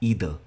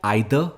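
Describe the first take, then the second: First: It is said with an American pronunciation. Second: It is said with a British pronunciation. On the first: "जो second है ये American pronunciation है" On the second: "जो first spelling है वो यू के pronunciation है"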